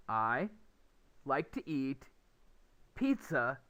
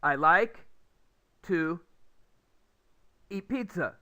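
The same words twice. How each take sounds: First: "like to eat" as one unit, "pizza" set apart; short pauses only round the chunk "like to eat"; clear chunking. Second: "I like", pause, "to", long pause, "eat pizza"; loud "I like", stranded "to", "eat pizza" run together; broken chunking. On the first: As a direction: link "like to eat", then a beat before "pizza". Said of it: "is very understandable". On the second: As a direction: split "to" off on its own between long gaps. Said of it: "is harder to understand". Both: Shown as a demonstration.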